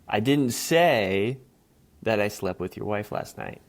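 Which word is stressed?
say. The stress is on the word say.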